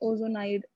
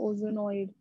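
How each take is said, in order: First: The word ends with a 'nide' sound. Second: The word ends with a 'noid' sound. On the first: The speaker calls it right. "ओजोनाइड, sorry not नॉइड" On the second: The speaker calls it wrong. "Sorry not नॉइड"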